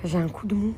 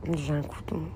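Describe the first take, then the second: First: Said in the usual way. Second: J'ai un coup de mou sagging, low and much softer; tired and quiet. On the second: Real, not acted. Streamer repeats that she is drained, low and worn out. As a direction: let J'ai un coup de mou deflate like a weary sigh.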